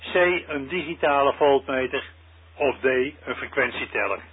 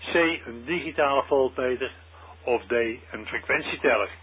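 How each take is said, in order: The two takes are said the same way.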